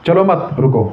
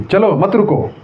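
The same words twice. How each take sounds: First: चलो मत run together, then रुको alone; pause after मत. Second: चलो set apart, then मत रुको together; pause after चलो. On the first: Teacher showing meaning change with a comma, pause after मत. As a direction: break the phrase just before रुको. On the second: Teacher showing meaning change with a comma, pause after चलो. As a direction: break the phrase just before मत. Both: Shown as a demonstration. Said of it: "कितना अर्थ change हो जा रहा है".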